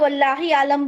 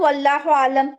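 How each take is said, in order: First: The first word ends with an 'i' vowel. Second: The first word ends with an 'u' vowel. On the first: The speaker calls it wrong. "वल्लाहो की जगह वल्लाही आलम बोल देते हैं" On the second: The speaker calls it right. "जैसे हम बोलते हैं ना वल्लाहु आलम"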